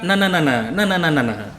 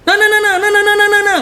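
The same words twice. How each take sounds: First: The pitch goes down, lower and falling. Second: The pitch stays high and raised throughout.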